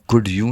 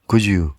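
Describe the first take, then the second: First: A clear d sound is followed by you. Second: The d blends with you into a j sound. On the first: Natives do not say it this way. "आप कुड यू नहीं सुनेंगे native से" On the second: This is how natives say it. "डी की जगह जे का sound सुनेंगे आप"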